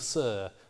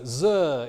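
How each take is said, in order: First: The word begins with a hissing s sound. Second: The word begins with a buzzing z sound. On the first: "instead of" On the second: "Voicing of initial fricatives"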